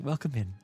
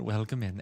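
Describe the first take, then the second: First: It is said in a put-on Merryweather voice. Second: It is said in the speaker's normal voice.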